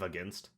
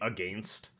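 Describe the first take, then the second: First: It is said with an American pronunciation. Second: It is said with a Canadian pronunciation. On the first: "we do down here" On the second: "when my Canadian coworkers say"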